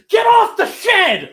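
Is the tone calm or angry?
angry. It is said in an angry, shouting tone.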